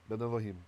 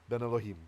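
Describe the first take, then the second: No difference in how they are said.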